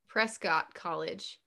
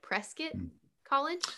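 First: The name's ending does not sound like 'biscuit'. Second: The name's ending sounds like 'biscuit'. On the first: The speaker calls it wrong. "it looks like Prescott College, but it's not" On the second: The speaker calls it right. "like biscuit"

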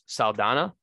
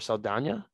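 First: The middle consonant is a plain n sound. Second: The middle consonant is a ny sound.

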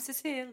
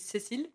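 First: The name is said with an American accent. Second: The name is said with a French accent. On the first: "I also introduce myself with the American accent" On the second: "I never say my name is Cécile"

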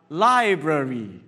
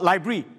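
First: The word is said in a full, careful form. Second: The word is said in a short, clipped form. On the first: The speaker calls it right. "but library. Ah, a bit more artistic" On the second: The speaker calls it wrong. "the right way to pronounce this is not library"

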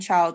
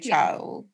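First: The word has its standard pronunciation. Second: The word has a slang dialect pronunciation. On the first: "instead of saying child" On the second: "you say child"

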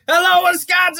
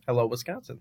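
First: It is said loudly, with lots of energy. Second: It is said calmly, without much energy.

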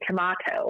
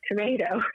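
First: It is said with a British accent. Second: It is said with an American accent.

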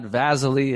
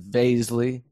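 First: The name does not rhyme with paisley. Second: The name rhymes with paisley. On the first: The speaker calls it wrong. "not Vaszily" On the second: The speaker calls it right. "it's Vaszily"

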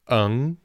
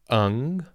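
No difference in how they are said.

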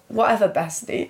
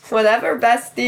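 First: It is said in her normal voice. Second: It is said in a put-on girly voice.

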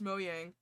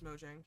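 First: The name is said with its original pronunciation. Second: The name is said with an Americanized pronunciation. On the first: "it is pronounced Mojang"

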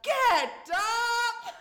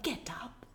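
First: It is said loudly and forcefully. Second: It is said softly and gently.

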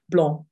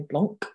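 First: The final consonant is silent at the end. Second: The final consonant is pronounced at the end. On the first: The speaker calls it right. "consonant's silent at the end of the word" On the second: The speaker calls it wrong. "I think English people tend to try and say blanc, like Mont Blanc"

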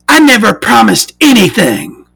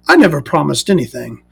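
First: Said in a mocking, undignified put-on voice. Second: Said in a dignified, gentlemanly put-on voice. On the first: The speaker calls it wrong. "Why am I doing that voice for me?" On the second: The speaker calls it right. "I'm a dignified gentleman. Let me do that voice properly"

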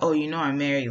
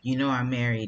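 First: It sounds like a scolding warning. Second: It sounds like a flirty hint.

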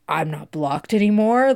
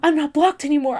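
First: It sounds matter-of-fact, not hopeful. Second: It sounds hopeful and eager.

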